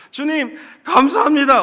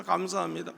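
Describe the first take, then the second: First: Loud, slow, higher cry of thanks; shouted thanks. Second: Tearful thanks. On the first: Man kneeling on the highway shouting thanks, loud and slow. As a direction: lift both hands and shout it to God. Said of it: "막 큰 소리로 외치는데". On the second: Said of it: "눈물을 흘리면서". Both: Retold or imitated.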